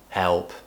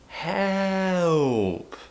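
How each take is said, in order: First: The pitch stays level throughout the word. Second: The pitch rises and then falls on the word. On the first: There is no sense of emergency. The speaker calls it wrong. "it sounds very flat. There's no tone" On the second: There is an emergency. The speaker calls it right. "a rise and fall tone or an up-down tone"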